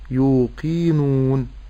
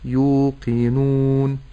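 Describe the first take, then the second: First: The vowel after the q is lengthened. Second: The vowel after the q is kept short. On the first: The speaker calls it wrong. "ألا أمد في القاف فأقول يوقنون فهذا خطأ" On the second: The speaker calls it right. "ولكن أقول يوقنون"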